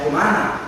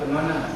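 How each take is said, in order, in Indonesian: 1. Kata ini diucapkan dengan jelas, mulut terbuka. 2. Kata ini diucapkan dengan asal-asalan dan digumamkan. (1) "ya kemana" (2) "jangan kemana, jangan"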